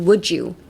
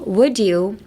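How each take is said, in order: First: The d and y blend into a j sound. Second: The two words are kept separate.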